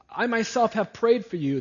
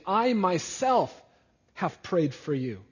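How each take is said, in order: First: "prayed" hit hardest, voice raised throughout; emphatic. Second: "I myself" raised and slowed, the rest settling; emphatic. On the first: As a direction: stress on "prayed", whole line higher and louder. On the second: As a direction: lean hard on "I myself", drawn out. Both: Acted. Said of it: "Jesus is emphatically saying".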